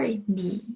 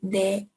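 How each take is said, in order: First: The word ends in an 'ee' vowel. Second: The word ends in an 'e' vowel. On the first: "N E E, 니" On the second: "how it's written is supposed to be pronounced as 네"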